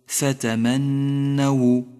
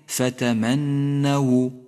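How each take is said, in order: First: The n sound is held long and doubled. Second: The n sound is held long and doubled.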